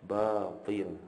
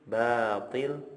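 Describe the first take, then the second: First: The first sound is heavy and thick. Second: The first sound is light and thin. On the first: The speaker calls it wrong. "orang sudah menebalkan huruf ba" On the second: The speaker calls it right. "harusnya dibaca batil, ba-nya tipis"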